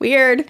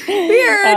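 First: Said in the usual way. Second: Weird said high and louder, drawn out; high squeaky weird. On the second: Shown as a demonstration.

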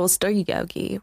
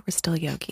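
First: Said in the usual way. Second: Soft zen whisper of We're still yogi. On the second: Shown as a demonstration. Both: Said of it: "we're still chill".

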